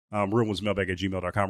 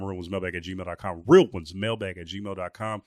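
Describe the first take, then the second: First: Said in the usual way. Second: Slowed right down, each word of the email clear; slow, spelled-out repeat. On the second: Shown as a demonstration. Host repeating the show email slowly so listeners catch it.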